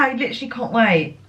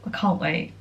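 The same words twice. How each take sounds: First: Said in the usual way. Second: Soft repeat. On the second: Real, not acted. Repeats her excitement.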